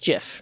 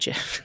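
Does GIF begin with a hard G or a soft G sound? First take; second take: soft G; hard G. First: The word begins with a soft J-like sound. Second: The word begins with a hard G sound. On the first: The speaker calls it right. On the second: The speaker calls it wrong.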